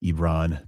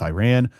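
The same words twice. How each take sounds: First: "Iran" said as ee-RON; "Iran" drawn out as ee-RON; native-style pronunciation. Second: "Iran" said as eye-RAN; "Iran" the American way, eye-RAN; Anglicised pronunciation. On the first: Shown as a demonstration. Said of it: "we can say Iran instead of Iran". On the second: Real, not acted. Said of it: "People get on me when I say Iran".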